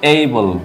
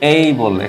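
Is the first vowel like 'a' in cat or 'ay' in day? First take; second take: day vowel; day vowel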